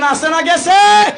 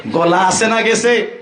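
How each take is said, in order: First: Higher, louder shout of গেছে; loud call to the crowd. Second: Said in the usual way. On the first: Real, not acted. Preacher asks the crowd louder whether their voice is gone. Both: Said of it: "জুড়ে বলেন".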